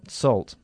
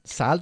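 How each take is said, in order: First: The vowel sounds like an O. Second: The vowel does not sound like an O. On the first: The speaker calls it right. "como si fuese una O" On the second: The speaker calls it wrong. "Salt no"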